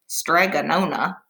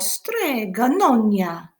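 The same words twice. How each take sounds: First: It is said flatly in a plain English accent. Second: It is said with an exaggerated Italian accent. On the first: The speaker calls it wrong. "that doesn't sound very fun" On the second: The speaker calls it right. "you always have to say it like that"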